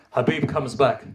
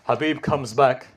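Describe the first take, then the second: No difference in how they are said.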